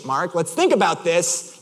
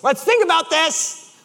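First: Slow, measured appeal; restrained reasoning. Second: Slow, high-pitched insistence; escalating exasperation. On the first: Driver stepping in to reason with friend, restrained. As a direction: hold the frustration in. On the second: Driver pressing his unbothered friend, escalating exasperation. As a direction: repeat it with mounting strain. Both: Retold or imitated.

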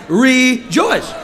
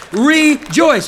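First: Loud shouted rejoice; congregation shout. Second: Loud, high call; rejoice. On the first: Shown as a demonstration. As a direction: shout it with the crowd. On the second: Real, not acted. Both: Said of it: "Everybody shout".

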